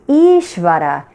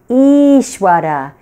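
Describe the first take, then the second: First: The middle consonant sounds like a V. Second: The middle consonant sounds like a W.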